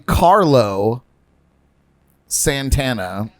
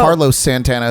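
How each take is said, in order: First: The two names are kept clearly apart. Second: The two names run together into one. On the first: The speaker calls it right. "space the name correctly" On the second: The speaker calls it wrong. "you said it all together, and it sounds like"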